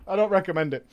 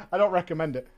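Both takes have the same delivery.

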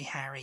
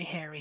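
First: HARRY with the A of "hat"; short-A Harry. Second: HAIRY with the long vowel of "air". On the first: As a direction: say HARRY as "ha-ree". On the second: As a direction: say HAIRY as "hair-ee". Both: Shown as a demonstration. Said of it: "the difference is so subtle".

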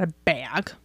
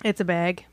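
First: "bag" with the rejected vowel, soft and drawn; mocked pronunciation. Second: "bag" said their own way, softly, as the right one; corrected pronunciation. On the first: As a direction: mimic the wrong way of saying "bag". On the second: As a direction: offer "bag" as the correct form. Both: Shown as a demonstration. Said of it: "not a bag".

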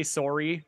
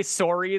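First: "sorry" with a rounded Canadian "sore-ee"; Canadian-accented "sorry"; Canadian pronunciation. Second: Said in the usual way. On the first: Shown as a demonstration. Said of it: "when they say sorry". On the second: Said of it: "they say sorry".

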